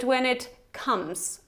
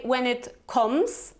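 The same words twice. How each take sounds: First: "comes" with the short open vowel of "cup"; correct "comes". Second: "comes" with a rounded o vowel, like "koms"; mispronounced "comes". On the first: Teacher corrects learners' pronunciation, "comes" said as "kumz". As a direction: say "comes" as "kumz", slowly, falling. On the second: Teacher shows learners what we don't say, "comes" mispronounced as "koms". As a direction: say "comes" as "koms", slowly, rising. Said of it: "remember that we don't say". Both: Shown as a demonstration.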